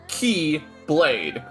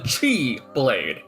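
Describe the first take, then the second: First: The first syllable sounds like 'key'. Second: The first syllable sounds like 'chi'. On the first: This is the standard name. The speaker calls it right. "If you were to properly pronounce it" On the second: This marks it as a different thing. The speaker calls it wrong. "to help us differentiate it, I'm calling it the Chi Blade"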